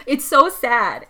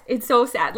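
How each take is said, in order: First: Slow, heavy "so" in a mildly choked lament; drawn-out lament. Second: Said in the usual way. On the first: Real, not acted. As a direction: stretch it out as if near tears. Upset about the Pinocchio scene.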